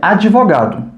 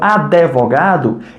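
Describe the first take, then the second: First: The d becomes 'dji' with an added 'ee' vowel. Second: An added 'eh' vowel comes between d and v. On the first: "São dois fonemas adicionados no meio da palavra, o D, D e o I" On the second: "eu insiro o E entre esse D e esse V"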